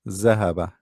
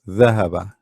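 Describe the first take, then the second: First: The word begins with a z sound. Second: The word begins with a voiced th sound. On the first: The speaker calls it wrong. "You don't say ذهب. This is za" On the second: The speaker calls it right. "What we are using here is the"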